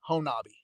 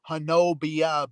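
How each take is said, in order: First: The name ends with an 'ee' sound. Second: The name ends with an 'ee-uh' sound. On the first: This is how local people say it. "but locals, it's Honobi" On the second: This is how the spelling suggests it is said. "It looks like Honobia"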